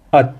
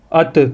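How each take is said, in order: First: ات stopped dead on the t, no bounce; ات with no vowel after the final t; firm stop on t. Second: ات with the final t jerked into a tiny extra vowel; ات with a released, echoing t; wrong jerked ending. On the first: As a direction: land firmly on the t of ات and stop. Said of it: "تا کے اوپر آ کے رک جائیں". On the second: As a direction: bounce the t at the end of ات, as a mistake. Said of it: "جھٹکا نہیں مارنا". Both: Shown as a demonstration.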